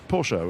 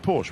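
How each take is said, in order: First: The name is said the German way. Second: The name is said the English way. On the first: "which is how the Germans say it" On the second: "which is the sort of anglicisation of it"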